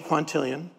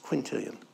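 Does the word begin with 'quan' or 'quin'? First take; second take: quan; quin. First: The first syllable is said as 'quan'. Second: The first syllable is said as 'quin'. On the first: The speaker calls it wrong. "don't say quantillion" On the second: The speaker calls it right. "It's quintillion"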